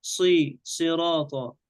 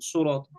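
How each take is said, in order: First: "صراطا" opened with a pure "si"; unrounded i after the ṣād in "صراطا"; correct kasra. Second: "صراطا" said surata with rounded lips; faulty "su" opening on "صراطا"; wrong rounding. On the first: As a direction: isolate "صي", then say "صراطا" as sirata. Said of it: "إنما نقول صي". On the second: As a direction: colour the first vowel of "صراطا" to u. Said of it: "لا نقول صراطا". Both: Shown as a demonstration.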